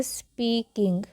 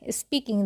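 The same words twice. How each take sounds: First: "स्पीकिंग" slowly split into s, pee, king; slow teaching breakdown of "स्पीकिंग"; syllable-by-syllable. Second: Said in the usual way. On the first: Shown as a demonstration. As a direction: sound out स्पीकिंग in separate pieces. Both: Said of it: "देखिए".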